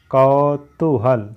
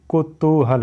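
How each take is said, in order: First: "कौतूहल" very slow, drawn-out kau; wrong pronunciation demo. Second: "कुतूहल" with short ku and long too; correct pronunciation demo. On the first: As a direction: stretch "कौतूहल" syllable by syllable from a broad kau. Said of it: "गलत है". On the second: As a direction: open "कुतूहल" on ku, linger on the middle. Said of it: "होता है". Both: Shown as a demonstration.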